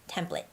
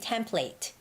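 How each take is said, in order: First: It is said with an American accent. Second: It is said with a British accent. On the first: "when I'm saying American English, it's more of I have to say the word template" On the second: "when Tony was using the British accent, the British English, she he kept on saying template"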